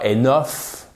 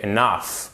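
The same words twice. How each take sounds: First: "enough" with a clear o, "eh-noff"; mispronounced enough, o in the last syllable; wrong pronunciation. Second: "enough" as "e-NUFF"; second-syllable stress. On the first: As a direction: say enough as a French-style "é-noff". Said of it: "Et c'est pas enough". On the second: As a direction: stress the end of enough, with an "uh" vowel. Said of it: "Vous avez votre accent tonique". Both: Shown as a demonstration.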